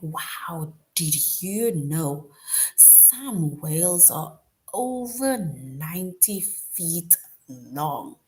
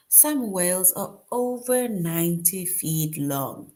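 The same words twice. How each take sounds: First: A mildly amazed wow, slowed down; surprised. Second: Said in the usual way. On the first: Shown as a demonstration. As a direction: tell it like a surprising fact. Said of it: "'Cause you would be like". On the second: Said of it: "look at an example of an exclamation sentence".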